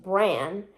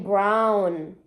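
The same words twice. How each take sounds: First: "bran" with a plain vowel and no w; wrong version, no W. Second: "brown" drawn out with the w audible; own W kept. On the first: Ruling out a version, w-less "bran". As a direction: draw out "bran", dropping the w entirely. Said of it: "I'm not saying just bran". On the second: Insisting they keep the W, drawn-out "brown". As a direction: stretch "brown" slowly into its w. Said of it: "I still make the W". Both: Shown as a demonstration.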